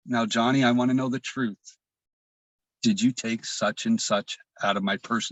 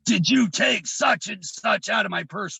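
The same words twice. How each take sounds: First: Measured, soothing questioning; calm, kind mother. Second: High, forceful angry demand; enraged mother. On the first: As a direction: imitate a mother's suddenly gentle interrogation. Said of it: "her demeanor changed to the most calmest". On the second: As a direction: imitate a raging mother's accusing interrogation. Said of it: "gives me that look". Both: Retold or imitated.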